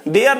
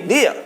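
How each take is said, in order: First: "there" said the way to avoid, with the final r sounded; wrong pronunciation. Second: "there" said as the model, final r dropped; corrected pronunciation. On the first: Teacher showing learners how not to say it, "there" with sounded r. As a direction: say "there" with a pronounced r at the end. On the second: Teacher correcting learners' "not there", "there" with silent final r. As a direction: end "there" on an open vowel, no r. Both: Shown as a demonstration. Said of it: "there नहीं, there".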